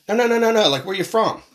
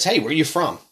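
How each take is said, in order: First: Pushy, high-pitched imitation of a questioner; insistent stranger. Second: Higher-pitched casual question from a stranger; mild imitation of a curious stranger; stranger's question. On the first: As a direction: imitate someone brushing off the answer and pressing. Stranger rejects answer, asks again. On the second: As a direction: lightly act out someone asking in passing. Acts out a stranger asking.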